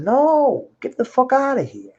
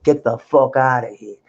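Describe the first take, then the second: First: High, sharp yell of refusal; high mock shout telling dealers to leave; retold yell. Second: Said in the usual way. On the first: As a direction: shout them away as told. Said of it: "I was yelling". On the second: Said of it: "I said".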